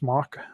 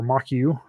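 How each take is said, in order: First: It is said as one syllable, like mock. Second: It is said as two syllables, mock-you. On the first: "pronounced mock" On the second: "or mock U"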